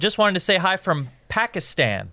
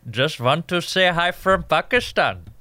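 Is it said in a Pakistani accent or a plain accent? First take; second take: plain; Pakistani. First: It is said in his own plain accent. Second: It is said in a put-on Pakistani accent.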